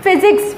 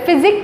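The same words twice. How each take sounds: First: Said in the usual way. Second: फिजिक्स cut short to "physic"; final s dropped. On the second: Shown as a demonstration. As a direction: say फिजिक्स without its last s sound. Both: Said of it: "फिजिक्स कुछ नहीं है".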